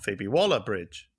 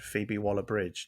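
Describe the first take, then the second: First: The stress falls on the part Waller. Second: The stress falls on the part Bridge. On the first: The speaker calls it wrong. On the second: The speaker calls it right. "I should put the emphasis on Bridge"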